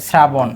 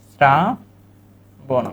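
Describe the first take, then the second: First: Said in the usual way. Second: "শ্রাবণ" very slow, opening as a clear s-r sound; pronunciation demo. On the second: Shown as a demonstration. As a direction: split "শ্রাবণ" into sraa, pause, bon. ("শ্রাবণ" দন্ত্য স দিয়ে ধীরে ভেঙে বলা) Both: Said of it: "তাহলে উচ্চারণ হবে".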